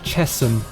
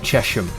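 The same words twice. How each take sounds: First: The name begins with a 'Chess' sound. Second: The name begins with a 'Chesh' sound. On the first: The speaker calls it right. "It's actually Chesham because of the river's Chess" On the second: The speaker calls it wrong. "places in England that are actually like kind of pronounced wrong"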